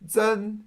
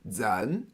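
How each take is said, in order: First: The pitch stays high and level. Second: The pitch rises from middle to high.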